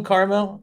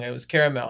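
First: Caramel said as KAR-mel, two syllables, questioning; caramel with the middle vowel dropped, KAR-mel; caramel pronunciation. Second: Caramel said as KARE-a-mel, three syllables, falling; caramel with all three syllables, KARE-a-mel; caramel pronunciation. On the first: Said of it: "am I saying the word wrong". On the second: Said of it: "like I'm saying the word wrong". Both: Shown as a demonstration.

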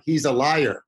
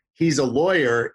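First: Put-on "He's a liar" in a mild Indian accent, lawyer sounding like liar; a hint of an Indian accent, retelling how coworkers introduced him; light Indian accent. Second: Said in the usual way. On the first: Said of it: "with their accent". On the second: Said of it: "instead of saying".

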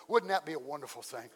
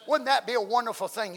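First: Lower, softer wondering; soft musing question. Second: Emphatic repeat. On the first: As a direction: ask it gently to yourself. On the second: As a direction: press it home to the congregation. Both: Shown as a demonstration.

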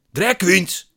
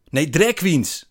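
First: High, loud exasperated shout. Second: Loud, high impatient correction; exasperated correction. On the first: Man repeats it to puzzled narrator, shouting. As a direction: yell the correction out. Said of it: "schreeuwt hij". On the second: Man corrects narrator's misunderstanding, exasperated. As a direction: correct him with raised voice. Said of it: "zegt hij". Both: A narrator's reading.

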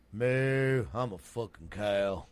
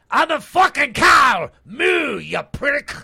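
First: Put-on slow, regular old Texan moo; lightly voiced Texas-accented cow. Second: Put-on very loud, high Irish-accented shout; Irish cow. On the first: Doing regional cows, plain slow Texan cow. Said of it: "Texas would be just regular old". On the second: Doing regional cows, shouted angry Irish cow.

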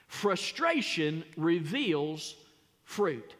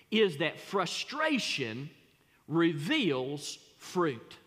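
First: Slow repeat, "fruit" set apart after a pause; spaced out, pause before "fruit"; repeated for emphasis. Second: Each word laid down slowly for weight; drawn out, "reveals" stressed hard; slow emphatic statement. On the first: Preacher repeating the point slowly for the congregation. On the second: Preacher slowly stressing "reveals" for the congregation. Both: Shown as a demonstration.

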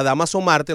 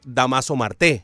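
First: "Marte" stressed on MAR; Spanish stress. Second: "Marte" stressed at the end, mar-TÉ; shifted stress. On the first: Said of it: "un hombre que se llama". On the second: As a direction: land on the final E of "Marte". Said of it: "le vayamos a decir". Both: Shown as a demonstration.

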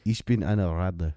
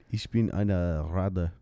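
First: Slow Ich bin eine Ratte, deliberate; German line. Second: Slow careful Ich bin eine Ratte; German line. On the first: Co-host repeating a German phrase on request, slowly. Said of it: "Say that again?". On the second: Co-host coaching a German phrase, slowly. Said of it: "You gotta say". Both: Shown as a demonstration.

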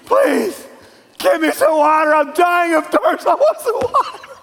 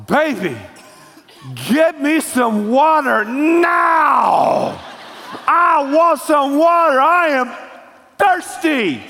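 First: High-pitched, hammed-up desperate pleading; begging and pleading. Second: Demanding with attitude. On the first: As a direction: beg frantically, voice climbing very high. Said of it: "then you beg, and you plead". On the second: Acted. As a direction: holler like a spouse dying of thirst. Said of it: "With an attitude like that".

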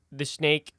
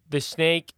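No difference in how they are said.

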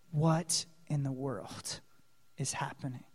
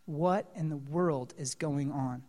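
First: Awed hushed question; hushed wonder. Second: Low, soft amazement; awed hushed question; hushed wonder. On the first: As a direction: ask it under your breath in awe. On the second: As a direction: murmur the question in awe. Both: Real, not acted. Preacher's hushed rhetorical wonder.

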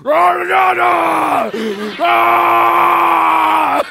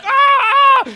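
First: Loud, drawn-out monster bellow; hammed-up monster holler; monster roar. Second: Very high, loud shrieks; imitated child's terrified screaming; blood-curdling scream. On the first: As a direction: roar it out long and high like an echoing monster. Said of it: "so I sounded like a monster". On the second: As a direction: scream in short, piercing bursts. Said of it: "blood-curdling screams".

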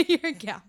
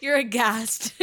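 First: Laughing. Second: Said in the usual way. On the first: Real, not acted. Teasing the co-host with a laugh.

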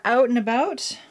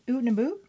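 First: Said in the usual way. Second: Mock Canadian accent. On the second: Vlogger joking about how Canadians supposedly talk, mock Canadian accent. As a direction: put on a joking Canadian accent, rising at the end. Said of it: "Canadians don't really have that accent".

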